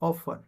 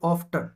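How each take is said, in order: First: The t sound is silent. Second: The t sound is pronounced. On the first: The speaker calls it right. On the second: The speaker calls it wrong.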